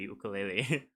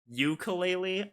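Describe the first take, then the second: First: It is said with a Hawaiian pronunciation. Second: It is said with an American pronunciation. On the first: "the actual one from Hawaii would be" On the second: "I'm pretty sure that's the American pronunciation"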